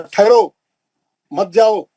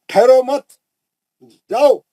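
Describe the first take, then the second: First: The pause comes after the first word. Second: The pause comes after the second word.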